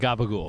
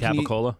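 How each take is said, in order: First: It is said clipped and voiced, like gabagool. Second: It is said with full standard syllables, capicola. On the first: The speaker calls it right. "Thank you" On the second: The speaker calls it wrong. "You're saying that wrong"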